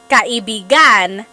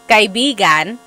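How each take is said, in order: First: The stress falls on a different syllable. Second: The stress falls on its usual friend syllable. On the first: The word means lover. "if you put the stress somewhere else, like kaibigan, that means lover" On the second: The word means friend. "So kaibigan means friend"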